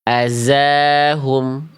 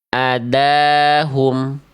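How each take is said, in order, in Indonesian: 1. Konsonan tengahnya bunyi z yang bergetar. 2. Konsonan tengahnya bunyi d biasa. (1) "Karena dia dibaca menjadi huruf zai" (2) "Karena dia dibaca menjadi huruf dal"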